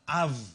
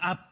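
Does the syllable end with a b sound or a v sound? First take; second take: v sound; b sound. First: The syllable ends with a v sound. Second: The syllable ends with a b sound. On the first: The speaker calls it right. "Katanya yang pertama adalah av" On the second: The speaker calls it wrong. "bukan ab"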